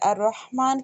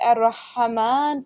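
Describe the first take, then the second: First: The h is closed with no vowel after it. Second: The h is followed by a short a vowel. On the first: The speaker calls it right. "हा पर जज़म है" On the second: The speaker calls it wrong. "हा पर मैंने ज़बर लगा दी"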